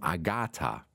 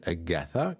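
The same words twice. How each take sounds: First: The middle consonant is a plain t sound. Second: The middle consonant is an English th sound. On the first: This is how Germans have always said the name. The speaker calls it wrong. "wie wir Deutsche immer gesagt haben" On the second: This is how the name is said in English. The speaker calls it right. "tatsächlich wird die gute Agatha genauso ausgesprochen"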